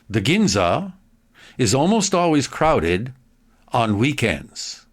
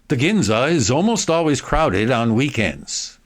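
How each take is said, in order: First: The sentence is read slowly with clear pauses. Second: The sentence is read quickly and smoothly. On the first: "read it slowly one more time" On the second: "more quickly"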